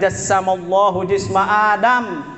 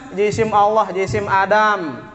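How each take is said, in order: First: The first word is read as jassama, a verb. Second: The first word is read as jisim, a noun. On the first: God created the body of Adam. The speaker calls it right. "Yang baca benar itu" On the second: God has a body, the body of Adam. The speaker calls it wrong. "dibaca dengan kaedah Melayu"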